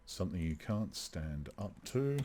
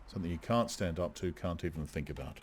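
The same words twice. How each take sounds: First: "up to" lifted as an open question; questioning rise. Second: Brisk first clause, settling down to "about"; falling statement. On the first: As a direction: softly test it, rising on "to". Testing the phrasing of the line. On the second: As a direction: run "stand up to" straight on, falling away on "think about". Retrying the line as one statement. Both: Shown as a demonstration.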